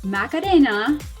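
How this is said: The name is said with Spanish pronunciation. "I'm pronouncing it the Spanish way"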